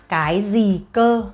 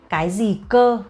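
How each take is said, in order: The two takes are said the same way.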